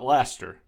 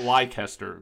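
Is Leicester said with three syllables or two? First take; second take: two; three. First: The word is squeezed into two syllables. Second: The word is said with three full syllables. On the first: The speaker calls it right. "but Leicester" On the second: The speaker calls it wrong. "it's not Leicester"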